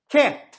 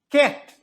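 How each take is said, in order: Both takes have the same delivery.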